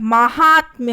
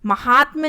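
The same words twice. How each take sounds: First: महात्म्य said as maahaatmya; correct form. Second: महात्म्य with short ma; wrong form. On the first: Teacher correcting students, महात्म्य with long maa. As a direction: lengthen the first vowel of महात्म्य to maa. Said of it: "यहाँ पे मा". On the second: Teacher showing the mistake, महात्म्य as ma-haatmya. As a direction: start महात्म्य on a short vowel. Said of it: "महात्म्य नहीं होता है". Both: Shown as a demonstration.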